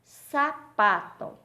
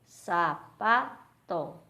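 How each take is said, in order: First: "Sapato" slow, high and loud, split after SA; syllable demo. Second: "sapato" very slow in three separate beats; loud SA - PA - TO with clear gaps; syllable by syllable. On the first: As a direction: ring out SA - PATO slowly. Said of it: "dividir as palavras em sílabas". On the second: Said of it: "três sílabas". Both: Shown as a demonstration.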